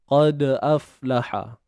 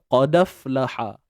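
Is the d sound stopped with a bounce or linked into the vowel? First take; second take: bounced; linked. First: The d is stopped with a bounce before the glottal vowel. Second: The d runs straight into the following vowel. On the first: This is the usual reading. "Matikan dal dengan hadirkan sifat-sifat dia. Sifat lantunan dia" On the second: This is the reading with naqal. "Pindahkan baris hamzah kepada huruf sukun ni tadi. So bunyinya"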